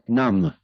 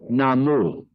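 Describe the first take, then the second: First: The word ends on the m, no vowel. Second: The word ends with a sounded final vowel. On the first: The speaker calls it right. "we say nam" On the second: The speaker calls it wrong. "we don't say namu"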